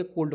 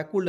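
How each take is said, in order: First: "कोल्ड" said as "kold", with a clear long o; "कोल्ड" with a long "o" as in "bold"; correct pronunciation. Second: "कोल्ड" said wrongly as "kuld", with an oo sound; "कोल्ड" with the vowel like "u" in "pull"; wrong pronunciation. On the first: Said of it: "कोल्ड पढ़ेंगे". ("कोल्ड" का सही उच्चारण, लंबा ओ) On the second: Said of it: "कोल्ड नहीं पढ़ेंगे". ("कोल्ड" को "कुल्ड" जैसा गलत उच्चारण) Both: Shown as a demonstration.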